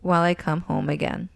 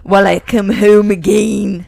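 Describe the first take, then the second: First: It is read in the speaker's ordinary accent. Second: It is read in a put-on Scottish accent.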